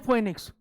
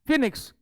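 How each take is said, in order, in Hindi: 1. पहला स्वर 'foe' जैसा सुनाई देता है। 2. पहला स्वर 'fee' जैसा सुनाई देता है। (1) "बहुत से लोग क्या पढ़ते हैं" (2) "it is like this, फिनिक्स form"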